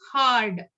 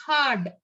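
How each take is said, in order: First: "hard" with the R sounded before the D; American pronounced R. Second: "hard" with no R before the D; British R-less pronunciation. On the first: Teacher showing learners American English, "hard" with the R pronounced. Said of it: "they will pronounce the R". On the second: Teacher showing learners British English, "hard" with a silent R. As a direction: drop the R in "hard". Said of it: "the R not pronounced". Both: Shown as a demonstration.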